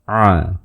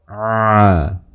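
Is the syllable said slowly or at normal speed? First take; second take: normal speed; slowly. First: The syllable is said at normal speed. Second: The syllable is drawn out slowly. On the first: "Kalau penormal dilafalkan secara normal seperti ini" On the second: "Jadi kalau diperlambat seperti ini"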